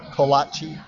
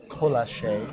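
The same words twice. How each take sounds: First: Kolache as koh-LAH-chee. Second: Colache as koh-LAH-shay. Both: Shown as a demonstration. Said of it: "trying out pronunciations".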